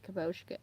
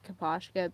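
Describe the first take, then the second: First: "Kaposhka" with a long "oh" in the middle; kuh-POHSH-kuh. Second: "Kaposhka" with an open "ah" in the middle; kuh-POSH-kuh. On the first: Retold or imitated. Fan quoting the creator's version, "Kaposhka" as kuh-POHSH-kuh. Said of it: "even though he said it". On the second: Shown as a demonstration. Fan sticking with the learned way, "Kaposhka" as kuh-PAHSH-kuh. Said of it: "I just still say it".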